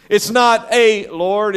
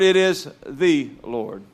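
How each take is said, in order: First: "not" stretched and lifted, slow; stress on not. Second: "the" weighted, slow falling line; slow, lean on "the"; stress on the. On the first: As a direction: slowly lean on "not". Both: Shown as a demonstration.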